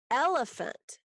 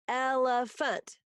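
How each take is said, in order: First: Said in the usual way. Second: "elephant" slowly split into its syllables. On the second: Shown as a demonstration. Teacher counting syllables for pupils, "elephant" syllable by syllable. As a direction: sound out "elephant" in three slow beats. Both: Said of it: "three syllables".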